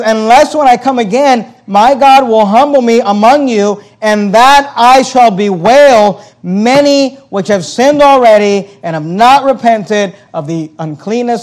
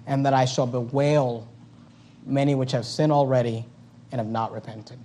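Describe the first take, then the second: First: Loud, high, slow fiery preaching; preaching at full force. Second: Soft, tender reading. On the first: Pastor preaching Paul's warning, loud, slow and fiery. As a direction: thunder the verse at the congregation. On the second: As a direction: quietly grieve over the words. Quiet reading of same verse. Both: Acted.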